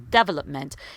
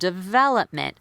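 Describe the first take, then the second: First: The stress is on the first syllable. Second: The stress is on a later syllable. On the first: The speaker calls it wrong. "So they'll stress the first syllable" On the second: The speaker calls it right. "instead of"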